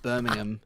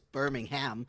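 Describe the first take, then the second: First: It is said with a British pronunciation. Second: It is said with an American pronunciation. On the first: "I'm British and I say like" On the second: "they're like it's"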